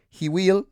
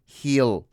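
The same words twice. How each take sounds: First: "He will" pitched high and rising, two words; teacher contrasts the full form with the contraction; full form, not used. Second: "he'll" said as one short syllable; teacher shows the natural spoken form; contracted he'll. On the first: Lift it high, both words clear. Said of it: "no dicen "he will". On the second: One quick syllable. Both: Shown as a demonstration.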